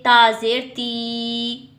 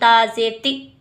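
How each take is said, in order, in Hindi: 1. अंतिम स्वर लंबा खींचा जाता है। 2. अंतिम स्वर झटके के साथ काटा जाता है। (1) "ना ही हम इसको लंबा करके पढ़ेंगे" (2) "ना ही हम झटका दे के पढ़ेंगे"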